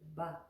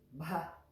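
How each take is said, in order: First: The b is said without a puff of air. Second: The b is said with a puff of air. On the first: The speaker calls it wrong. "if it had no H, it would just be Ba" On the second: The speaker calls it right. "it becomes an aspirated sound. We give it a puff of air"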